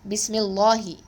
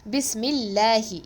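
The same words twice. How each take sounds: First: The L in Allah is heavy and full. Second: The L in Allah is light and thin. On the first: The speaker calls it wrong. "It is not" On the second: The speaker calls it right. "we recite the name Allah as light"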